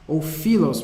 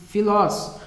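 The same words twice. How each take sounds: First: Filos with stress on the first syllable fi. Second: Filós with stress on the final ó. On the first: Teacher corrects himself: filos, stress on fi. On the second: Teacher first gives Filós, then corrects it. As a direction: say Filós, leaning on the last syllable. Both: Shown as a demonstration. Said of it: "melhor dizendo".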